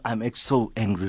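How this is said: The voice sounds calm and controlled. "The other one, the tone is more calm"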